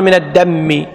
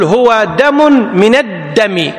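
First: من الدم said "min ad-dammi"; wrong doubled mīm. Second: من الدم with double d and single m, "min ad-dami"; doubled dāl. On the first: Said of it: "ما تقول". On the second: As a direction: slowly model من الدم with a short, light mīm. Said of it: "يعني الدال مشدد". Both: Shown as a demonstration.

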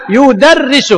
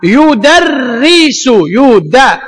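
First: Said in the usual way. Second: Very slow يدرس; teacher spelling out يدرس; slow demo. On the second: Shown as a demonstration. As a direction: stretch out يدرس.

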